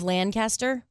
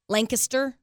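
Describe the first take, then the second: First: It uses the standard pronunciation. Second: It uses the local Texan pronunciation. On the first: "instead of Lancaster" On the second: "people say ... Lancaster"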